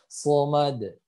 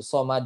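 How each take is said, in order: First: "somad" slow, with heavy emphatic S; thick sod. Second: "somad" with a light S like sin; thin S. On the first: Teacher gives the right take, thick slow "somad". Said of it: "itu dia tebal". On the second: Teacher gives the wrong take, thin "somad". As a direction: say "somad" with the tongue low. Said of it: "bukan somad". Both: Shown as a demonstration.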